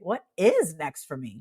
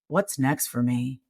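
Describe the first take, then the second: First: The tone is bright and hopeful. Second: The tone is dark and heavy. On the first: The future feels exciting. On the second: The future feels hopeless.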